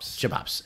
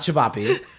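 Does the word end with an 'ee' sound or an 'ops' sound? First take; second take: ops; ee. First: The word ends with an 'ops' sound. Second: The word ends with an 'ee' vowel sound. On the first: The speaker calls it right. "It's chibops" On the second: The speaker calls it wrong. "as Kian people mispronounce it"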